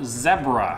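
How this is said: It is said with a British pronunciation.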